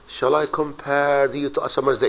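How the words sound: It is read dramatically, with feeling.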